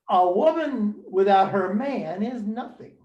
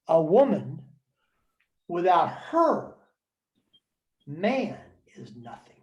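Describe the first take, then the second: First: It is said without pauses inside the sentence. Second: It has pauses after 'woman' and after 'her'.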